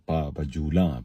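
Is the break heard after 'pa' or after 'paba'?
after pa. The phrase is split after the first syllable 'pa'. Walk with chains on the feet. The speaker calls it right. "बल्कि पा बजूला, पैरों में बेड़ियां"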